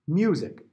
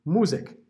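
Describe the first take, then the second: First: Music as myoo-zik, glide before the u. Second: Musik with a plain oo, no y glide; German Musik. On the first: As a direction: say music with the ya sound. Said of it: "if you didn't put the ya in there". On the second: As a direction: say Musik as moo-zeek, no ya. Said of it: "It would sound like the German word Musik". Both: Shown as a demonstration.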